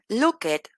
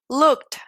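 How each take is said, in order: First: The ending is pronounced as a separate syllable. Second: The ending is a short T sound. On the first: The speaker calls it wrong. "En lugar de decir" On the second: The speaker calls it right. "esta ed es una T"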